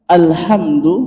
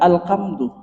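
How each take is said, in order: First: The middle consonant is a breathy h sound. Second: The middle consonant is a harsh k-like sound. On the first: All praise is for God. The speaker calls it right. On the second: All sorrow is for God. The speaker calls it wrong.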